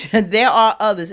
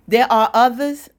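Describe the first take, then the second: First: "There are others" high and louder, falling at the end; retold confirmation. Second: High, louder incredulous question; retold disbelief. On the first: Girlfriend confirming the news to the other, "There are others" as a falling statement. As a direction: state "There are others" as a firm answer, pitch dropping to close. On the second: Shocked woman questioning the other girlfriend, disbelieving. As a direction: act out her stunned question, voice lifting at the end.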